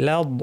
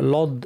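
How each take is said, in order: First: The l is said light and thin. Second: The l is said heavy and full-mouthed. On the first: The speaker calls it right. "লাদ বলার সময় লাম পাতলা" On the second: The speaker calls it wrong. "লাম শুদ্ধ ভারী করে লদ এইভাবে বলেন, এটা ঠিক না"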